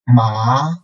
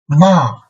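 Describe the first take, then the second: First: It is said with the second tone. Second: It is said with the fourth tone. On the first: "second tone" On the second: "and fourth tone"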